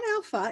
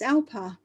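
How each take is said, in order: First: The middle consonant is an F sound. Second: The middle consonant is a P sound. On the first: The speaker calls it wrong. "It's not Alpha" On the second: The speaker calls it right. "It's Alpa"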